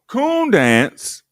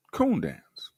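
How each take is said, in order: First: High, loud mock announcement of the event; mock announcer. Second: Said in the usual way. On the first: Host mocking the old program, loud announcer call. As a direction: belt it out like a showman calling the next act.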